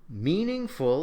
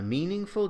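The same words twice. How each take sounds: First: The last syllable is stressed. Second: The last syllable is unstressed. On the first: "In the second example, it is stressed" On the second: "In the first example, the third syllable of meaningful is unstressed"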